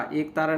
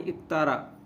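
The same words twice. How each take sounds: First: एक तारा with ए at the start; wrong pronunciation. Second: एक तारा said as इकतारा; correct pronunciation. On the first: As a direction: open on long ए in एक तारा. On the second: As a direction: start एक तारा with short इ. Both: Shown as a demonstration. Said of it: "एक तारा नहीं".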